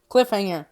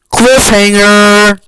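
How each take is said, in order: First: Said in the usual way. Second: Very loud, drawn-out shout; dramatic announcement. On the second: Real, not acted. Storyteller revealing the ending, dramatic shout. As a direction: belt it out slowly like a big reveal.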